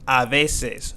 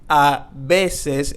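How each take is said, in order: First: The consonant in veces sounds like an English v. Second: The consonant in veces sounds like a b. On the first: The speaker calls it wrong. "we're not going to say a veces" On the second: The speaker calls it right. "we have the B. So we're going to be saying a veces"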